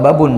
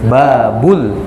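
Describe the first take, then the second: First: The word ends with an n sound. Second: The word ends with an l sound. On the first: The speaker calls it wrong. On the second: The speaker calls it right.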